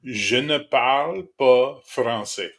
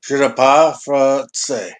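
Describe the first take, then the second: First: Je ne parle pas français, slow and careful with every syllable; French phrase taught slowly. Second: Je ne parle français, dropping the pas; botched French repeat. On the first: Teaching a friend French, slow careful pronunciation. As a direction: model the French line for a friend to copy. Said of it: "repeat after me". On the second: Friend repeats the French lesson, missing the negation. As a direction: copy the French line but leave out the pas. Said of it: "Motherfucker misses double negation". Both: Shown as a demonstration.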